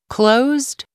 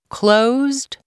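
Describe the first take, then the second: Both takes have the same delivery.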